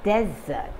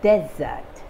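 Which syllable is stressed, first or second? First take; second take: first; first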